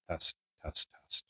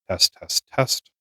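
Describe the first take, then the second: First: Muffled, heavily filtered mic test; strongly processed, quieter mic sound; heavy noise cancellation. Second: Mic with light noise reduction; lightly filtered test read; light noise cancellation. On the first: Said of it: "this is high noise cancellation". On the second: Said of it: "low noise reduce, uh, cancellation". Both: Shown as a demonstration.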